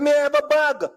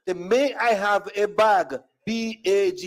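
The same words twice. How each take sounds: First: Said in the usual way. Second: Word by word, then spelt out; slow, careful repeat. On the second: Retold or imitated. Customer spelling it for store lady, slow careful repeat. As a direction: enunciate each word slowly for the listener.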